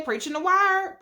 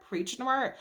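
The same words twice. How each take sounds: First: Hyped church call. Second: Trailing echo. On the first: Hyping the uncle's speech. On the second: Echo dropping away. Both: Retold or imitated.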